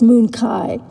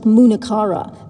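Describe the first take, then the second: First: It is said with the Punjabi pronunciation. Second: It is said the way it is spelled. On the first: "I use the Punjabi pronunciation" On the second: "The word looks like Munakara"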